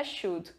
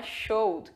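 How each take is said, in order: First: "should" short, as "shud"; the right "should", short u; correct pronunciation. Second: "showed" with a long o, as "showd"; the mistaken "showed", long o; wrong word showed. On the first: Teacher giving students the correct version. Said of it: "Não é showed, é should". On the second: Teacher showing students the word to avoid. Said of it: "Não é showed". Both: Shown as a demonstration.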